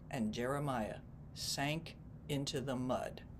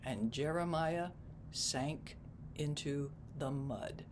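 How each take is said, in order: First: The sentence is read at a normal pace. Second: The sentence is read slowly and deliberately.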